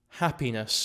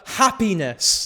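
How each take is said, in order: First: The word is said at normal volume. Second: The word is said more loudly.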